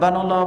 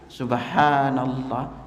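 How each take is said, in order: First: It is said quickly and clipped. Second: It is said slowly with long vowels.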